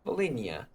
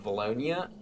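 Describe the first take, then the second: First: The name starts with 'Vol' and ends 'hynia'. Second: The name starts with 'Val' and ends 'lonia'. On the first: The speaker calls it right. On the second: The speaker calls it wrong.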